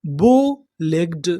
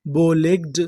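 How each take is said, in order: First: बो legged said very slowly and lower; slow sounding out. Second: Said in the usual way. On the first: Shown as a demonstration. Teacher to students learning English, slow lower demo. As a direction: stretch बो legged out, each part held. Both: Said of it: "तो हमारी पूरी meaning क्या बनी".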